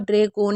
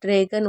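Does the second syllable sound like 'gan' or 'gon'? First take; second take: gon; gan. First: The second syllable is said like 'gon'. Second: The second syllable is said like 'gan'. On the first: The speaker calls it wrong. "ड्रैगोन नहीं होगा" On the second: The speaker calls it right. "तो ये ड्रैगन होगा"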